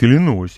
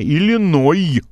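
First: The word ends with an s sound. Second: The word ends without an s sound. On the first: The speaker calls it wrong. "Человек говорит" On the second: The speaker calls it right. "Я говорю, не"

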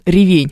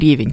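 First: The stress is on the second syllable. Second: The stress is on the first syllable. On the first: The speaker calls it right. "Так вот он ревень" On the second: The speaker calls it wrong. "а не ревень, как многие думают"

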